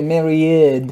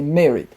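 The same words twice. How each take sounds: First: The ending is said as an extra syllable. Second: The ending is said as a plain D sound. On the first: The speaker calls it wrong. "we shouldn't say married" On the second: The speaker calls it right. "but we shall say married"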